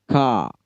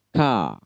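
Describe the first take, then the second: Both takes have the same delivery.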